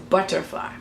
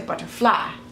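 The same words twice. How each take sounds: First: The stress is on the first part, butter. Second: The stress is on the last part, fly. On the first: This is the usual English stress. "in English the butter part would be more of an em- emphasis" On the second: This is how Hebrew speakers stress it. "fly would be emphasis more so in Hebrew"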